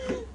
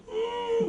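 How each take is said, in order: First: High, thin happy squeal; demonstrated happy little sound; mock happy hum. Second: High, soft overacted whine; hammed-up sad little moan; mock sad whimper. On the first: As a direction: pretend delight with a wordless noise. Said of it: "if you're happy, you're like". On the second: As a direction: fake being sad with a squeal. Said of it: "If you're sad". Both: Shown as a demonstration.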